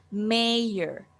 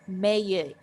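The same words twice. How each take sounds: First: "mayor" said slowly as "meh-er" with a light R at the end; American mayor. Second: "mayor" said as "meh-uh" with no R at the end; British mayor. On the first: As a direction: let the R in "mayor" be slightly heard, American style. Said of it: "But in American accent". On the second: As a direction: drop the R in "mayor", British style. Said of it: "pronounced mayor in British accent". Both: Shown as a demonstration.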